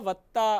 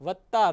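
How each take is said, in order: No difference in how they are said.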